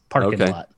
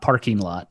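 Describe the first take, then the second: First: The g at the end of parking is dropped. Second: The g at the end of parking is pronounced. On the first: The speaker calls it right. "There's no G on the end" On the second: The speaker calls it wrong. "It's not parking lot"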